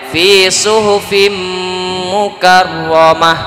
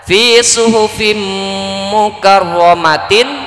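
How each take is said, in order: First: The phrase ends cut off with a final 'h'. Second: The phrase ends with a full 'tin' syllable. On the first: The reader stops at the end of the verse. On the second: The written form, read without stopping.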